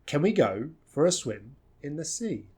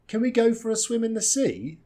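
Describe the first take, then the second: First: Measured, pauses after "go" and "swim"; GO, SWIM, SEA stand out, small words weak; phrase by phrase at usual pitch; three chunks. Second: High joined-up tune over "Can we go for a swim in the sea"; one lifted run, dip and rise on SEA; lively, higher-pitched question; question intonation. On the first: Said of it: "three nice chunks here". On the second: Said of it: "want some intonation for that question". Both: Shown as a demonstration.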